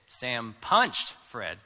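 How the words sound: The stress is on punched.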